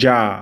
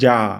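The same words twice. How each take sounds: Both takes have the same delivery.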